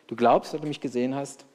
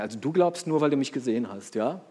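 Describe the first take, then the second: First: It sounds neutral, like stating a plain fact. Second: It sounds reproachful, like a wagging finger.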